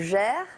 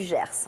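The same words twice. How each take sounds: First: The final S is left silent. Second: The final S is clearly pronounced. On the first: This is how aristocrats say the name. "on va éluder le S" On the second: This is the usual local way of saying the name. "au lieu du Gers"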